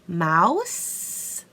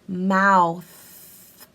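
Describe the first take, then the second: First: The word ends with an s sound. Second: The word ends with a th sound. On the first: The speaker calls it wrong. "No, no, no, no, no" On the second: The speaker calls it right. "it's actually formed different so they can get the correct pronunciation"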